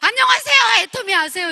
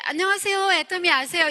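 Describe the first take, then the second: First: The greeting is said loudly and forcefully. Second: The greeting is said smoothly at moderate volume. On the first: "목소리가 더 커지는 거예요" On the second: "좀 세련되게"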